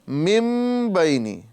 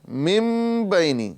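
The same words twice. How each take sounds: No difference in how they are said.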